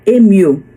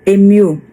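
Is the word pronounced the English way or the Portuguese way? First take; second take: English; English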